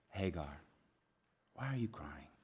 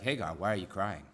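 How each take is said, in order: First: It is said in a sweet, tender tone. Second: It is said in a harsh, stern tone.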